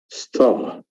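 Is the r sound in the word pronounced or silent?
silent. The r sound after the vowel is dropped. "So this is the British accent actually"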